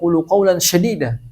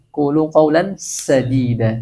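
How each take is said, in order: First: The last word begins with a sh sound. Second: The last word begins with an s sound. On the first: The phrase means speak hard words. The speaker calls it wrong. "Kadang orang karena pengen saking fasihnya" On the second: The phrase means speak straight words. The speaker calls it right. "pakai sin ya, jangan pakai shin"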